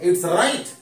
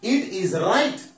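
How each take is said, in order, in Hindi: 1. शब्द मिलकर संक्षिप्त रूप 'it's' बन जाते हैं। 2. दोनों शब्द 'it is' पूरे बोले जाते हैं। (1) "इज को शॉर्ट फॉर्म में लिखा हुआ" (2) "यहां पे ये फुल में लिखा हुआ"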